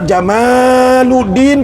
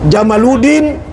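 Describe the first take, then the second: First: The vowel in the word is long. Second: The vowel in the word is short.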